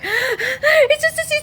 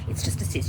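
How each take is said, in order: First: It is said in a panicked, fearful way. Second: It is said in a firm, determined way. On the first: The person is affirming out of fear. The speaker calls it wrong. "So if I was panicked, like" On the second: The person is affirming with conviction. The speaker calls it right. "I am determined"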